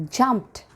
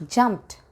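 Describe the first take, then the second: No difference in how they are said.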